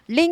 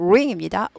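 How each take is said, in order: First: The word begins with an L sound. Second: The word begins with an R sound. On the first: The speaker calls it wrong. "링 아니고" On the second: The speaker calls it right. "R 발음 아주 중요합니다"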